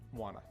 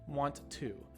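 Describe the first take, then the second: First: The words blend into one with the Ts dropped. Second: Both words are said fully with both T sounds. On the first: The speaker calls it right. "So want to becomes wanna" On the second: The speaker calls it wrong. "we have the two T sounds in want to"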